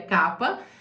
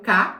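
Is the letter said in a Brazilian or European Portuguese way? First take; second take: European; Brazilian. First: The letter is said the European Portuguese way. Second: The letter is said the Brazilian Portuguese way. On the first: "aqui pronuncia K" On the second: "que é o K que a gente fala no Brasil"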